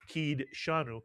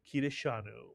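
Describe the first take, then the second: First: No vowel is heard between d and sh. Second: A short vowel is heard between d and sh. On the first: The speaker calls it wrong. "We wouldn't say kid shanu, and you'll hear many people say that" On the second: The speaker calls it right. "the actual pronunciation of this word is kideshanu"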